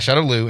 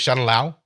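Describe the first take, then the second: First: The final syllable sounds like 'loo'. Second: The final syllable sounds like 'lau'. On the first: This is how the original film says it. "we get this in the original film Shadow Lu" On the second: This is how the newer film says it. "in this one it's Shadow Lao, which I think is like L A U"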